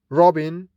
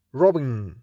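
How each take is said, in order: First: Robin with a rising pitch; rising tune. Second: Robin with a falling pitch to close; falling tune. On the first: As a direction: lift the end of Robin. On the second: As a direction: let robin drop at the end. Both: Shown as a demonstration.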